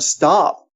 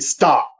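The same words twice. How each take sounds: First: The word is said in a calm, neutral tone. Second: The word is said in an angry tone. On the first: "you can say the word stop" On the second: "you can angrily say stop"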